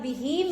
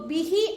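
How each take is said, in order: First: The final vowel is long. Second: The final vowel is short. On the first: "हा खड़ी जेर ही" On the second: "हा जेर ही"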